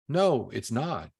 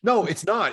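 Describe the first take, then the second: First: It is said in a lower pitch. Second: It is said in a higher pitch.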